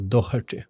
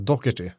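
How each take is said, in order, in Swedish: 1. Inget k-likt ljud hörs mitt i ordet. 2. Ett strupljud likt k hörs mitt i ordet. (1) "Medans britter säger då Doherty" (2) "om man är irländare så säger man nog Doherty med det som K"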